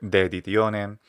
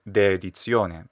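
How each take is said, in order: First: It is said with classical Latin pronunciation. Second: It is said with ecclesiastical Latin pronunciation. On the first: "if you're using a classical pronunciation" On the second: "he could also do"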